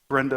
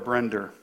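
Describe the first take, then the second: First: The name ends in a plain vowel. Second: The name ends with an added r sound. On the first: "We always knew her as Brenda" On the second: "they would add an R in places where it isn't there"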